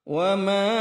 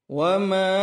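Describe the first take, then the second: The two takes are said the same way.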